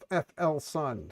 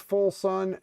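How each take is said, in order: First: The first part is spelled out as letters. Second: The first part is said as one word. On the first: The speaker calls it wrong. "not F L sun. So we've been saying it incorrectly" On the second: The speaker calls it right. "Apparently, it's full sun"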